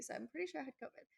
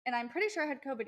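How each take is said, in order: First: Much softer and faster, a tossed-off repeat; quiet quick aside. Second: Said in the usual way. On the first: Real, not acted. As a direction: mutter it away as an afterthought.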